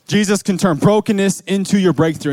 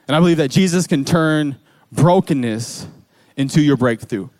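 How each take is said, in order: First: Preacher driving home brokenness into your breakthrough; emphatic repeat. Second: Said in the usual way. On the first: Shown as a demonstration. To the congregation, stressing brokenness.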